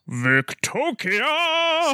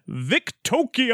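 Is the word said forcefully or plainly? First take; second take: forcefully; plainly. First: The word is said loudly, with strong force. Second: The word is said plainly, without extra force.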